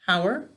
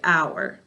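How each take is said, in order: First: Every letter of the word is sounded. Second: One letter of the word is left silent. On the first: This is a way to remember the spelling. "the way we say it to spell it... we'll actually say all the sounds" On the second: This is how it is said in normal speech. "when we're speaking... we ignore this"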